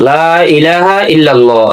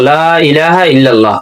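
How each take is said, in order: The two takes are said the same way.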